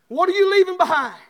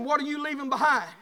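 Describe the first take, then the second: First: Louder and higher second time; louder insistent repeat. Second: Said in the usual way. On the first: Acted. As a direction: press the question home.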